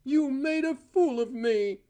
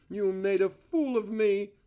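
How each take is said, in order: First: Higher, louder, near a shriek; voice rising shrilly. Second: Angry accusation; rage. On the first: Cora screaming at Val, a high shrill accusation. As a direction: let the voice climb high on the accusation. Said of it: "Her voice rose shrilly". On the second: Cora accusing Val, a mild angry accusation. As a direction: throw the accusation at him. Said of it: "shaking with rage". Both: A narrator's reading.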